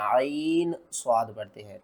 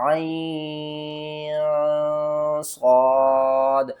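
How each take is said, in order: First: आइन स्वाद read with a clear, separate न before स्वाद; wrong way. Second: आइन स्वाद chanted slowly, the न hidden in a nasal hum into स्वाद; hidden nasal ikhfa. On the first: Teacher shows the wrong reading, आइन स्वाद said plainly. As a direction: say आइन स्वाद crisply, with no nasal hiding. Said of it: "आइन स्वाद नहीं पढ़ना". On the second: Teacher demonstrates the correct recitation, slow nasal ikhfa. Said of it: "बल्कि पढ़ना". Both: Shown as a demonstration.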